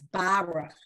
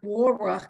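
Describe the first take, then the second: First: The first vowel sounds like 'a'. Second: The first vowel sounds like 'o'. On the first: The speaker calls it right. "it's Baruch" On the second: The speaker calls it wrong. "It's not Boruch"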